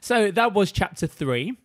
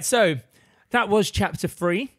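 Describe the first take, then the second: First: It is said in a BBC standard accent. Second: It is said in an Essex accent.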